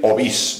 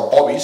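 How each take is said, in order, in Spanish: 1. La tónica está en la última sílaba. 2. La tónica está en la primera sílaba. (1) "es agudo, ¿eh? Lo correcto es decir Ovís" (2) "en muchos casos se pronuncia llana"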